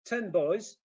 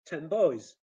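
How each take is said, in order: First: Said in the usual way. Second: Put-on "ten boys" said as "tem boys"; loud "ten boys" with m before b; assimilated n. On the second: Shown as a demonstration. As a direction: end "ten" on m. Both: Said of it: "assimilation is there".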